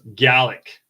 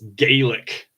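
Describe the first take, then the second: First: The first syllable sounds like 'gal'. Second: The first syllable sounds like 'gay'. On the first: This is how people in Scotland say it. "here in Scotland it's pronounced as Gallic" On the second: This is how people elsewhere say it. "in other countries that it's pronounced as Gaelic"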